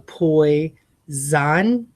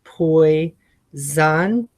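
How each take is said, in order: No difference in how they are said.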